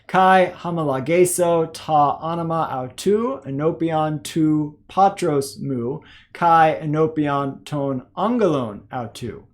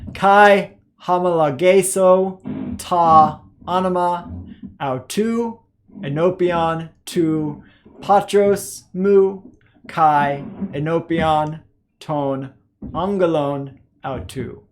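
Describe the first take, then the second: First: It is read at a faster pace. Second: It is read at a slow pace. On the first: "a little bit faster" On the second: "start with our slow reading"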